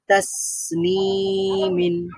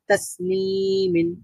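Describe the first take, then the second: First: The s sound is held and continues. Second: The s sound is cut off quickly. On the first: The speaker calls it right. "তো আমাদেরকে কি পড়তে হবে?" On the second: The speaker calls it wrong. "তাহলে কিন্তু আওয়াজটা জারি থাকলো না"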